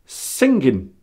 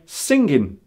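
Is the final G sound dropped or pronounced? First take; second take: dropped; dropped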